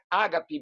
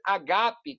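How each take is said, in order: First: The stress is on the first syllable. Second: The stress is on the second syllable. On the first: The speaker calls it wrong. "não é ágape" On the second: The speaker calls it right. "que é a pronúncia correta, o acento está no segundo alfa"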